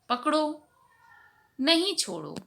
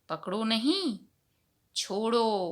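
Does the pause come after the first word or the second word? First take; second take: first word; second word. First: A pause comes right after the first word. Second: A pause comes right after the second word. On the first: Hold on; do not let go. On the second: Do not hold on; let go.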